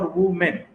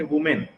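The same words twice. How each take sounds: First: "वुमेन" broken in two, वु, then मेन; split into syllables. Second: Said in the usual way. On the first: Shown as a demonstration. Teacher showing students two syllables, "वुमेन" split apart. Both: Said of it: "दो तरीके से उच्चारण हो रहा है".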